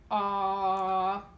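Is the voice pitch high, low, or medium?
low. The vowel is held at a low pitch. "So go a low pitch"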